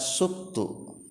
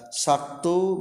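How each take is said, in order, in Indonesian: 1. Vokal pertama adalah u. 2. Vokal pertama adalah a. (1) "bisa dibaca subtu" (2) "dibaca saktu"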